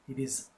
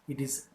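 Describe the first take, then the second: The two takes are said the same way.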